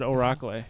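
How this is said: The word is said in an Irish accent.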